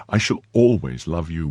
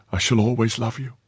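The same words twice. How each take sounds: First: Steady man's reply in natural pitch; reassuring chevalier. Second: Put-on higher, tender young woman's voice; devoted maid. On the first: Chevalier answering the maid's vow, steady assurance. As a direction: return the vow in an even voice. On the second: Maid to departing chevalier, higher devoted voice. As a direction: vow it lightly in a higher voice. Maid vows love in story. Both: A narrator's reading.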